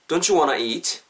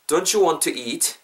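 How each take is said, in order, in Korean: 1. Want와 to는 빨리 이어서 "wanna"로 말합니다. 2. Want와 to는 따로 떨어진 단어로 말합니다. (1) "빨리 가볼게요. 연음해서" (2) "첫 번째 거 경우에서 한번 저 따라해 보세요"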